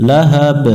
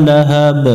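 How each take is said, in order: The two takes are said the same way.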